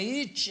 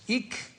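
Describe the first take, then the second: First: The suffix ends with a t or ch sound. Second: The suffix ends with a k sound. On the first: The speaker calls it right. "até que alguém me corrigiu, né, pesquisando sobre, não, é it" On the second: The speaker calls it wrong. "que eu pronunciava sempre com, com, como se fosse ic"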